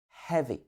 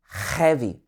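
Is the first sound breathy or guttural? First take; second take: breathy; guttural. First: The first sound is a soft breath of air. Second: The first sound is a harsh, guttural rasp. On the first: The speaker calls it right. "but heavy" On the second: The speaker calls it wrong. "It's not heavy"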